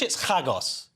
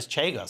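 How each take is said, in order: First: It is said in a Jewish-style pronunciation. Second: It is said in an American-style pronunciation. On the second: "if you're American"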